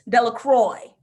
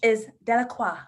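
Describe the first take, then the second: First: The name is pronounced the American way. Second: The name is pronounced the French way. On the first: This mispronunciation symbolizes the ritual's corruption. The speaker calls it wrong. "The villagers' pronunciation, Americans" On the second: This is the original pronunciation of the name. The speaker calls it right. "The true pronunciation, French"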